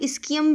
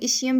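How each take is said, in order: First: The middle consonant is said as a k. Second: The middle consonant is said as sh. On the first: "कुछ लोग इस्कियम भी बोलते हैं" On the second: "कुछ लोग इशियम भी बोलते हैं"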